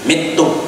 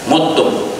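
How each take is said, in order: First: The first vowel is an 'i' sound. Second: The first vowel is an 'u' sound. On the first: "dan juga dikasrohkan huruf mim" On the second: "dengan didomahkan huruf mim"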